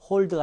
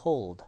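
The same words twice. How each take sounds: First: "hold" as Korean 홀드, short o with no glide; wrong plain vowel. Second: "hold" drawn out, o gliding into u before the ld; bent diphthong. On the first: Teacher shows students what not to say, glideless "hold". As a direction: say "hold" with a pure unbent o. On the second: Teacher models the right version for students, gliding "hold". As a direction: bend the vowel of "hold" in one slow sweep. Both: Shown as a demonstration. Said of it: "hold가 아니라 hold".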